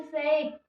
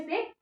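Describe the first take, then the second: First: "सेक" with a long, gliding vowel; drawn out. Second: Said in the usual way. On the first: Shown as a demonstration. Teacher contrasts two similar words, vowel stretched in "सेक". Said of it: "मतलब थोड़ा खींच के बोलेंगे". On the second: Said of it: "थोड़ा खींच के बोलेंगे".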